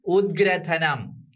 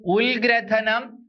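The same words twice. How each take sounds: First: ഉദ്ഗ്രഥനം slowly with a d sound before the g, falling; correct d sound. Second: ഉൽഗ്രഥനം slowly with an l sound before the g; wrong l sound. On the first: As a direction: stretch out ഉദ്ഗ്രഥനം as ud-grathanam. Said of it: "ഉദ്ഗ്രഥനമാണ്". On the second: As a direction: stretch out ഉൽഗ്രഥനം as ul-grathanam. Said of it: "ഇതൊരിക്കലും പറയില്ല അല്ലെ?". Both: Shown as a demonstration.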